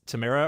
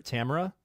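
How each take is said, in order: First: Tamara said as tuh-MAIR-uh; Tamara rhyming its middle with "air"; stressed second syllable. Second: Tamara said as TAM-er-uh; Tamara opening on a short "tam"; stressed first syllable. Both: Shown as a demonstration. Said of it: "how to properly pronounce her name".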